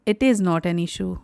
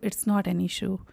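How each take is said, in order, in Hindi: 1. इसे अलग-अलग पूरे शब्दों में बोला जाता है। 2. इसे तेज़ी से संक्षिप्त रूप के साथ बोला जाता है।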